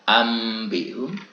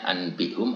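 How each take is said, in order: First: The nasal before the b is an m. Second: The nasal before the b is an n. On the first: This is how it must be recited. The speaker calls it right. "kemudian kita harus membaca ambihum" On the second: This is how it is written. The speaker calls it wrong. "tulisannya anbihum asalnya"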